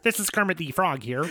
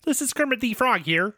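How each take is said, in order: First: Lightly voiced Kermit, soft and laughing; a half-hearted Kermit through giggles; Kermit the Frog. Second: A touch higher Kermit, rising at the start; Kermit the Frog. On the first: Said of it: "I'll be Kermit". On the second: Pretend. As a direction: try Kermit again, a little higher. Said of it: "Give me the Kermit the Frog line again".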